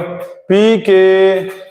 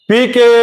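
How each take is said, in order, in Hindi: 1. इसे और धीरे बोला गया है। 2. इसे ज़ोर से बोला गया है। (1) "एम्पलीट्यूड छोटा हो गया" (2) "पहले बार बोले थे पी के तो हमारा एम्पलीट्यूड बड़ा था"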